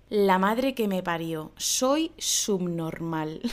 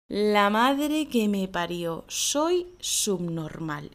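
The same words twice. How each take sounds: First: Self-annoyed sigh. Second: Slow, resigned grumble at your own silliness; self-annoyed tone. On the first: Acted. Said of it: "Qué es lo que voy a decir". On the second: Shown as a demonstration. After wasting hours on a silly problem, slow self-mocking grumble. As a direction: drag out soy subnormal in disgust at yourself. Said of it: "Y además con este tono".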